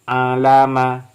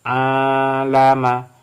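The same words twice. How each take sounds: First: The first vowel is short. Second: The first vowel is long.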